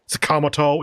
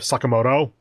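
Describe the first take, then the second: First: The stress falls on the second syllable. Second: The stress does not fall on the second syllable. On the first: The speaker calls it wrong. "second syllable stress ... makes them sound kind of weird" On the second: The speaker calls it right. "instead of"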